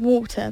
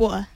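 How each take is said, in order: First: It is said in a posh English accent. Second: It is said in an East London accent.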